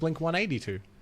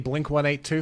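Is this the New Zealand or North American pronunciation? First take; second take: North American; New Zealand. First: It is said the North American way. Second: It is said the New Zealand way. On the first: "where everyone else says" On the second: "we say Blink one eighty-two for some reason"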